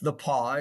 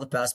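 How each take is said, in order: First: The name is said with a French pronunciation. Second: The name is said with an English pronunciation. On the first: This is the name's proper form. The speaker calls it right. "but it's the Pas. It's a French name" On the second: This is how people commonly say it. The speaker calls it wrong. "they call it the pass"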